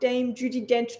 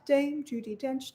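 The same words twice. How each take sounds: First: It is said with heavy, forceful tongue effort. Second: It is said lightly with little tongue effort. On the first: The speaker calls it wrong. "if you put too much effort behind your tongue" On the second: The speaker calls it right. "So if you keep it light"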